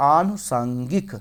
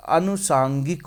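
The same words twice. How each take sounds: First: आनुसांगिक slowly, opening on a long aa; long first vowel. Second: अनुसांगिक slowly, opening on a short a; short first vowel. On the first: Teacher correcting to the big vowel, slowly drawn out. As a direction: stretch the आ of आनुसांगिक, rising at the end. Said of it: "बड़ा होता है". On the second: Teacher working out the word for students, short first vowel. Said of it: "छोटा नहीं कहता, बड़ा होता है". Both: Shown as a demonstration.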